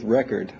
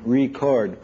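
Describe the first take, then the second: First: "record" as REK-erd, broken after REC; noun pronunciation. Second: "record" as ree-CORD, broken after RE; verb pronunciation. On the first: Lecturer telling of the second line's break, "record" as REC-ord. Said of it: "R E C hyphen O R D". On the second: Lecturer telling of the first line's break, "record" as re-CORD. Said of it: "R E hyphen". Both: Shown as a demonstration.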